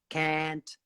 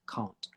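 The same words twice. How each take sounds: First: The vowel sounds close to the vowel in 'can'. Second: The vowel is a long, open 'ah' sound. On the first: "in America, they would say can, can't, really similar sound" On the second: "if you're from London, ... can't with an R sound"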